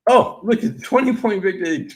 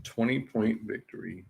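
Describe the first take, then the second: First: High, loud, excited repeat of the result; a bettor gushing over the score; delighted gush. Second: Said in the usual way. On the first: Real, not acted. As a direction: say it again, now thrilled.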